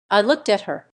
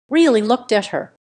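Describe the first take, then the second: First: Said in the usual way. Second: "really" pressed louder, falling; stress on really. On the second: A narrator's reading. Narrator insisting he truly looked at his daughter, stress on "really". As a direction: lean hard into "really".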